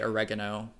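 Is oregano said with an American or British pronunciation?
American. It is said with an American pronunciation. "we Americans say oregano"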